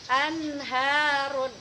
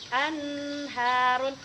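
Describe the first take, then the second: No difference in how they are said.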